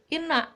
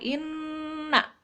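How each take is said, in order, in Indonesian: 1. Bunyi n di tengah pendek dan ringan. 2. Bunyi n di tengah dibaca panjang dan ditekan. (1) "nggak boleh inna" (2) "harus lama ditekan karena ada tasdid"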